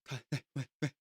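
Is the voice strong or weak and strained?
weak. It is said in a weak, strained voice.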